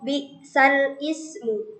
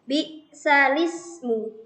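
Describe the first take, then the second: First: The word 'ismu' starts with its own separate onset. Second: The words run together without a separate glottal stop. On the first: The speaker calls it wrong. "Jadi bukan bi'sal ismu" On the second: The speaker calls it right. "dibaca dengan membalik sehingga menjadi bi'salismu"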